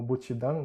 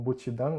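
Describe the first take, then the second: First: It is said the Okinawan way. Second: The same.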